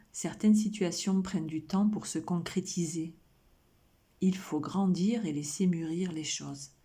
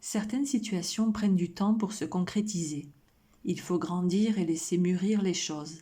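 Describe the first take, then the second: Both takes have the same delivery.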